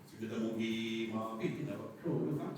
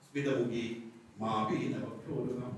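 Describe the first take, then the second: First: The words run together without any break. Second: A break falls after 'smitamukhi', before 'mapina'. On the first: Her breasts were never suckled by anyone. The speaker calls it right. "ചേർത്ത് പറയാം" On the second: It gives the opposite meaning. The speaker calls it wrong. "എന്ന് പറയാൻ പാടില്ല"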